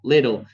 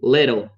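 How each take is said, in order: First: It is said in an American accent. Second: It is said in an American accent.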